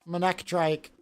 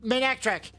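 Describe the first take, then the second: First: The name ends with a 'trike' sound. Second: The name ends with a 'trick' sound.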